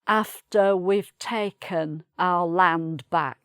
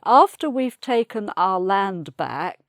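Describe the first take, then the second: First: It is spoken deeper, in an earthy manner. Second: It is spoken in a refined, aristocratic manner. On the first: The speaker calls it right. "much deeper and more down to earth" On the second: The speaker calls it wrong. "very aristocratic lady"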